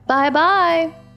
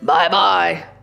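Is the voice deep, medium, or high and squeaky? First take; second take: medium; deep. First: It is said in a medium-pitched voice. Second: It is said in a deep, gruff voice.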